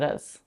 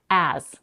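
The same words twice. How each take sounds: First: The vowel is reduced to a schwa. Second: The vowel is a full 'a' as in cat. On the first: "reduces the as to us" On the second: "keeping the pure quality of the vowel, a as in cat"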